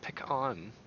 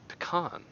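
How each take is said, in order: First: The first syllable sounds like 'pick'. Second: The first syllable has a weak 'uh' vowel. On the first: The speaker calls it wrong. "Not pick on" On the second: The speaker calls it right. "It's like the the e that exists in the word the"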